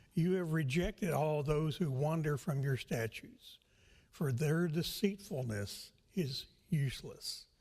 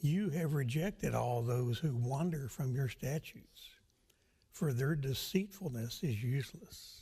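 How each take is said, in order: No difference in how they are said.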